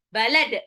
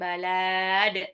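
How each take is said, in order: First: The first vowel is kept short. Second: The first vowel is drawn out long. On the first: The speaker calls it right. "tapi balad langsung" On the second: The speaker calls it wrong. "Lamnya nggak panjang ya, bukan balad"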